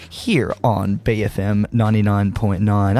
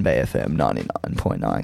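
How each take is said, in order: First: Said in the usual way. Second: Much lower, savoring each syllable; deep radio announcer voice. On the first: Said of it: "I'll say it again". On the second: Shown as a demonstration. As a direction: relish the station name like a jingle. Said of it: "'cause I love to say it".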